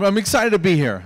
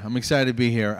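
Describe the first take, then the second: First: Higher, louder burst of excitement; excited. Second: Said in the usual way. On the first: Shown as a demonstration.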